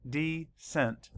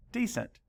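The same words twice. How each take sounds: First: Counting out the syllables of Decent slowly; broken into syllables. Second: Said in the usual way. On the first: Shown as a demonstration. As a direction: say decent slowly, one syllable at a time, De-cent. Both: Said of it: "Let's count the syllables".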